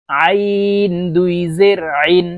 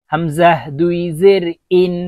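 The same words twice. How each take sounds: First: Slow আইন squeezed from the middle of the throat; pressed mid-throat ain. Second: হামজাহ recited evenly, ইন with a clean glottal start; clean hamza. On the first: Teacher modelling for learners, long pressed আইন from mid-throat. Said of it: "আইন চাপ দিয়ে নিচের দিকে". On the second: Teacher modelling for learners, হামজাহ then a plain glottal ইন. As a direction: start ইন crisply on the bare vowel. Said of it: "আলিফকে হামজা বলতে হবে". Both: Shown as a demonstration.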